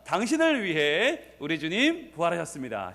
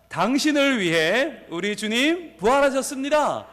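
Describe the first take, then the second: First: Said in the usual way. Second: High, slow rallying call; big voice. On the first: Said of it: "이렇게 말합니다". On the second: Real, not acted. Pastor leads congregation declaring it to neighbours, calling out. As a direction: proclaim it to the room, stretching the phrases. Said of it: "큰 목소리로".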